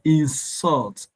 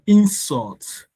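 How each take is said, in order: First: The stress is on the second syllable. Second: The stress is on the first syllable. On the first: It is used as a verb. "That's a verb" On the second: It is used as a noun. "That's a noun"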